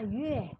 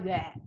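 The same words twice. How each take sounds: First: The syllable is said smoothly and softly. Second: The syllable is said harshly, not smoothly. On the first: The speaker calls it right. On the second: The speaker calls it wrong. "jangan bacanya yue ya, kan jelek"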